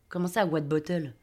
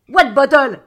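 First: Low, soft, slow echo; baffled aside. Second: Loud captain's puzzled question; shouted retort. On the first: A narrator's reading. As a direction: repeat it to yourself, puzzled. Narrator's baffled aside echoing captain. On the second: Acted. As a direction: fire the question back across the deck.

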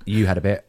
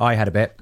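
First: You had a bit, with you stressed as the correction; correction, weight shifted onto you. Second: I had a bit, with I lightly stressed; first take, mild weight on I. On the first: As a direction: lean on you to correct yourself. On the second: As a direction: lean a little on I. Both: Shown as a demonstration.

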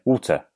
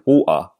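First: "water" with a fully sounded T; careful "water", crisp T in the middle; over-corrected water. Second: "water" with the T swallowed; old habit "water", no T, no R; dropped-T water. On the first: Self-conscious speaker correcting it, "water" with a clear T. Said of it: "now I sound like I'm from the north". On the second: Recalling the old way, "water" with dropped T. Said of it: "conscious of the fact that I said water". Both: Shown as a demonstration.

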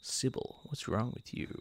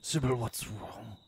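First: Breathy near-whisper plea; soft whispered concern; hushed interpretation. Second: Lower, slow, grave concern; mock solemn vet voice; slow deep interpretation. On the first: Retold or imitated. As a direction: hush it as if to a sick dog. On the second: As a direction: let each word hang, deep and slow. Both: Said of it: "Let's do our own interpretations".

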